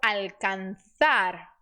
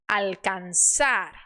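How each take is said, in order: First: The z sounds like English th. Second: The z sounds like an s.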